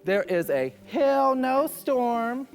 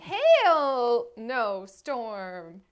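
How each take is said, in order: First: Slow, loud, higher mock delivery; mock clip voice. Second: Very slow, savoring each word; drawn-out repeat. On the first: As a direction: ham up the line like the contestant. Imitating the clip line. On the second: Retold or imitated. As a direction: stretch it out mockingly. Repeating a funny line.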